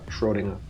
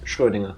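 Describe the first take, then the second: First: The first vowel is plain, without the er sound. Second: The first vowel is an er-like ö sound. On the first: "if you don't do the er" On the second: "it's Schrödinger"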